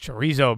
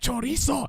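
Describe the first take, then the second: First: It is said with a plain English accent. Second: It is said with a Spanish-style accent. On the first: "I'm not. It's chorizo, bro" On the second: "I feel like I'm trying to talk like I'm Mexican... It doesn't come out normal"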